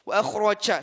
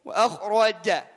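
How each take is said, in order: First: The final ja has a breathy c-like sound. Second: The final ja is voiced without breathiness. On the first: The speaker calls it wrong. "Kita hilangkan suara seperti ini" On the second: The speaker calls it right.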